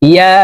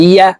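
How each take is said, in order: Both takes have the same delivery.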